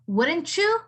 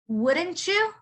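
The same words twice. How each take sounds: First: The t and y blend together smoothly. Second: The same.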